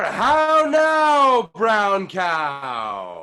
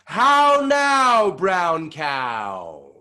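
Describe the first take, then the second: First: How now shouted high, brown cow still loud; full shouting warmup; even louder and bigger. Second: How now high and loud, falling to brown cow; big resonant warmup call; big face. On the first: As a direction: project it to the back wall. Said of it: "even louder and bigger". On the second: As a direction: open the face wide and project. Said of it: "make our face nice and big". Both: Shown as a demonstration.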